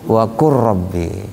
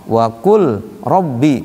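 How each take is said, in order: First: The l merges into a doubled r. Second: The l sound is pronounced before the r. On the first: This is how it is actually recited. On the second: This is the written form.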